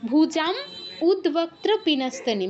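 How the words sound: There is a pause after the first word. "থামতে চাইলে ... সন্ধি ভাঙতে হবে"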